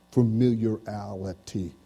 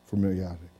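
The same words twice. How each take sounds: First: "familiarity" stretched syllable by syllable, slow; drawn out slowly. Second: Said in the usual way. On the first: Shown as a demonstration. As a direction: draw out "familiarity" slowly, as a question.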